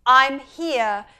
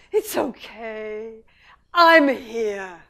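First: A hint of a mother's comfort; lightly voiced reassurance; reassuring mother. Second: Slow, tender reassurance; soothing mother. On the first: Mother answers her baby, mild comfort. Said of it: "where the mother says". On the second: Retold or imitated. Mother reassures her upset baby, slow and tender. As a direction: comfort gently like a mother. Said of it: "The mother says".

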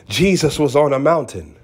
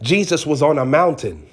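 No difference in how they are said.

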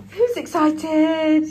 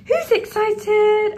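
First: Excited. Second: Much higher, louder, slow drawn-out "Who's excited?" with "Who's" stretched; excited pet talk. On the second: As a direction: stretch out "Who's excited?" way up high to wind up the dog. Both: Real, not acted. Hyping up the dog.

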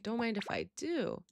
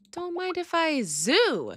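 First: Said in the usual way. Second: "zoo" sung out high and slow in place of do; silly zoo. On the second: Shown as a demonstration. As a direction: stretch "zoo" high and playful.

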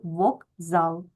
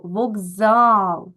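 First: Said in the usual way. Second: "вокзал" with a loud, drawn-out А; stress on last syllable. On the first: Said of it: "ми з вами отримуємо слово". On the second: Shown as a demonstration. Teacher marks the stressed vowel for pupils, stress on last syllable. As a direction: punch and stretch the final А of "вокзал". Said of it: "наголос на".

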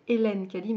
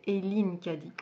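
First: "Hélène" said the French way, ay-LEN; mistaken pronunciation. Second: "Eileen" said with a long ee, ay-LEEN; corrected pronunciation. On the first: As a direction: say "Hélène" as ay-LEN, with an open è in the last syllable. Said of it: "j'ai dit que c'était". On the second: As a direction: say "Eileen" as ay-LEEN, ending in -een. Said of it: "mais en fait c'est". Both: Shown as a demonstration.

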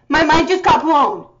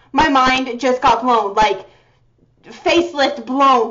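First: Said in the usual way. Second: My mind just got blown, said slowly; slowed, stunned. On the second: Real, not acted. Fan restating her shock to viewers, slow and stunned.

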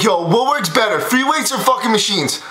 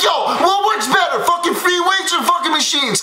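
First: Lower, worn-out voice after yelling; tired, lower rasp after losing his voice; voice gone. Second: Mock-shouted fanboy question; excited fan kid. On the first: Real, not acted. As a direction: push it through a voice that's just given out. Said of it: "I just lost my fucking voice". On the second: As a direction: play the hyped-up young fan yelling his question. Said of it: "he's like".

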